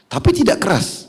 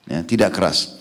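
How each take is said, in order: First: High, pointed "Tapi tidak keras"; spring up in pitch on "Tapi"; emphatic high. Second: Said in the usual way. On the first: Shown as a demonstration. Preacher stressing firmness without harshness, high and emphatic.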